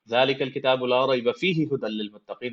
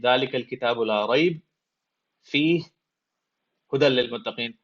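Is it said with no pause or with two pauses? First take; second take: no pause; two pauses. First: It is said straight through with no pause. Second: It pauses after ريب and after فيه.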